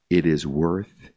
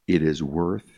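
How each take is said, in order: Both takes have the same delivery.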